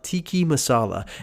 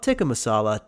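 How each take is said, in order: First: The first word ends in an 'ee' sound. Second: The first word ends in an 'uh' sound. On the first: The speaker calls it wrong. "referred to butter chicken as tiki masala" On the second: The speaker calls it right. "not tikka masala"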